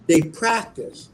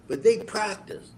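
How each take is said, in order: First: "they" slowed and leaned on; slow with weight on "they"; stress on they. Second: High "they" drawn out; slow, pitched-up "they"; stress on they. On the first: Repeats the quote for the listener. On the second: Punchline repeat of the quote. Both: Retold or imitated.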